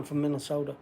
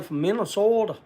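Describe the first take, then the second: First: Said in the usual way. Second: Minnesota accent. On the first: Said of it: "'Cause that's the way I'd say". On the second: Shown as a demonstration. Showing how a buddy from up there talks, Minnesota accent. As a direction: put on a Minnesota accent for the place name. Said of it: "that's the way he says".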